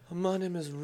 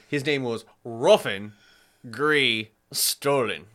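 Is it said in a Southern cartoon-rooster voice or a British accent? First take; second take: British; cartoon rooster. First: It is said in a posh British accent. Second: It is said in a Foghorn Leghorn voice.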